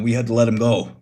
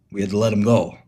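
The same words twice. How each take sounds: First: Offhand Tony voice, a touch different; lightly voiced Tony. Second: Said in the usual way. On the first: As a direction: say it as Tony, matter-of-fact. Tony explains Miguel's firing.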